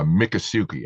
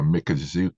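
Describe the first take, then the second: First: The middle consonant is an S sound. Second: The middle consonant is a Z sound. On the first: "I'm used to uh, Mikasuki" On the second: "the way you pronounce uh, Mikazuki, ... you're emphasizing sort of a Z sound?"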